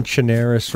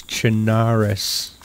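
First: "Chernarus" with an "air" vowel, cher-NAIR-us; New England pronunciation. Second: "Chernarus" with an open "ah", cher-NAH-rus; commenter's corrected pronunciation. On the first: Player quoting a commenter's complaint, "Chernarus" as cher-NAIR-us. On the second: Player quoting a commenter's correction, "Chernarus" as cher-NAH-rus. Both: Retold or imitated. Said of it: "You're saying Chernarus wrong".

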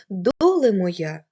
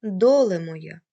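First: "доле моя" repeated slowly and louder, lingering on "доле"; slow, drawn-out recitation. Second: A lightly recited folk line, louder than the lecture; poetic recitation. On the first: Teacher repeating the folk line for her students, slow and louder. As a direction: stretch the repeated "доле моя" like a sung lament. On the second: Teacher quoting a folk song line to her students, lightly recited. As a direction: start the quoted verse with a little feeling. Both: Shown as a demonstration. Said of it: "Наприклад".

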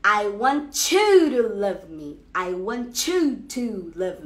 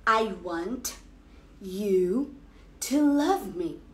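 First: "I want you" slowly blended into "wantchu"; slow, run "want you" together into a tch sound; want you joined as wantchu. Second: "I want you to love me" with each word split apart; every word of "I want you" kept apart; careful separate words. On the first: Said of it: "a frase vai ficar". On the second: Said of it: "Você vai falar". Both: Shown as a demonstration.

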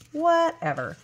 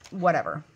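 First: Much higher, drawn-out dismissal; high, playful brush-off; exaggerated whatever. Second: Said in the usual way. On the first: Real, not acted. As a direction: pitch it way up, falling off at the end. Repeats whatever, drawn out mockingly.

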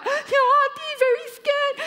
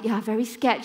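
First: Imitated terrified girl. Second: Said in the usual way. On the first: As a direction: squeal it like a panicking girl. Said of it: "She's like". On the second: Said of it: "you're very scared".

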